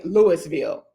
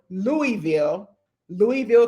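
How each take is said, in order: First: Louisville said LOO-is-vil with the s; outsider's Louisville with a hard s; wrong pronunciation. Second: Louisville said LOO-ee-vil, no s; Louisville with a clear ee and no s; alternate pronunciation. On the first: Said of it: "don't say Louisville". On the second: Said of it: "some people say". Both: Shown as a demonstration.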